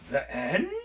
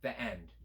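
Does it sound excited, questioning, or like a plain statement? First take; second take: questioning; statement. First: It rises at the end like a question. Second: It falls at the end like a statement.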